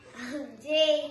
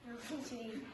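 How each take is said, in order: First: It is said loudly. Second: It is said quietly.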